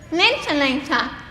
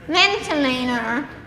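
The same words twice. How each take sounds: First: The final r sound is dropped. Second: The final r sound is pronounced. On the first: "South Africans say" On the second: "you Americans would say"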